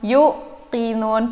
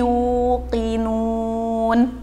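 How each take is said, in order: First: The middle vowel is cut short. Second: The middle vowel is held long. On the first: The speaker calls it wrong. "padahal tidak ada hamzah" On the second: The speaker calls it right. "itu harusnya panjang"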